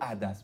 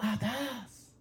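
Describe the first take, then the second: First: The word is said flatly, without wonder. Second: The word is said with awe and wonder. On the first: The thing is taken for granted. The speaker calls it wrong. "نگو عدس" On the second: The thing is seen as a marvel. The speaker calls it right. "بگو عدس"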